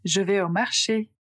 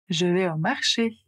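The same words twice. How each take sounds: First: Je vais au marché, stress on marché; tonic accent demo. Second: Je vais au marché with the accent landing on marché; stress at the end. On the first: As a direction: let the accent rise at the end on marché. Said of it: "Par exemple". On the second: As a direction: end the group strong on marché. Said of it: "Donc, l'accent est à la fin". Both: Shown as a demonstration.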